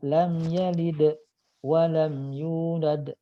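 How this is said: There is a pause after 'yalid'. The speaker calls it wrong. "Kadang berhenti"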